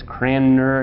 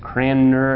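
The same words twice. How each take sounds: First: The n sound comes before the m sound. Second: The same.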